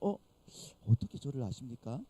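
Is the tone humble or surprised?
humble. It is said in a humble, modest tone.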